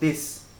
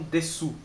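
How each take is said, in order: First: The word ends on the s, no final vowel. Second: The word ends with a clear final u vowel. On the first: The speaker calls it right. "você tem que pronunciar des" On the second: The speaker calls it wrong. "não desu"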